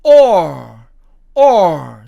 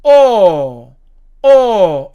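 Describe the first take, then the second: First: OR punched out with a sounded r; American or. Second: O as a loud, long "aw", no r; British or. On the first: Teacher showing American pronunciation, OR with clear r. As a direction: end OR on a curled r. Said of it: "미국식으로". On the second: Teacher showing British pronunciation, O as long "aw". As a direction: hold O open with the r dropped. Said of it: "영국식으로 발음하면". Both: Shown as a demonstration.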